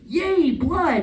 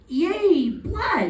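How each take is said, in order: First: It sounds only mildly excited. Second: It sounds clearly more excited.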